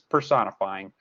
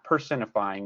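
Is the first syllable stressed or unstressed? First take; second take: unstressed; stressed. First: The first syllable, per, is not stressed. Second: The first syllable, per, is stressed. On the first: The speaker calls it right. "it's personifying" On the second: The speaker calls it wrong. "the correct way to pronounce it is not personifying"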